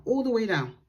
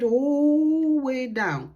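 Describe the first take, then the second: First: Said in the usual way. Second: "all" drawn out very long and louder in "all the way down"; long stretched ALL. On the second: Shown as a demonstration. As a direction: stretch out the word "all" before "way down". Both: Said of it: "bring it all the way down".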